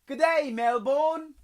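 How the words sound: It is said in a put-on Australian accent. "terrible Australian accent"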